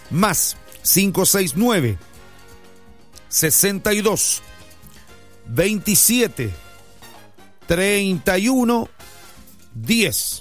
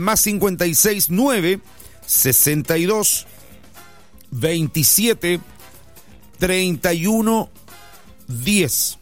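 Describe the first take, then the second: First: The number is said very slowly. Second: The number is said at normal speed.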